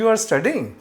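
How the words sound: The voice rises at the end, like a question.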